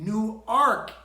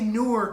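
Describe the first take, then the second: First: The second syllable has an 'ark' sound. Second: The second syllable has an 'erk' sound. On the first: It names the town in Delaware. The speaker calls it right. "It's an A, not an E" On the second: It names the city in New Jersey. The speaker calls it wrong. "Don't say Newark, okay? That's New Jersey"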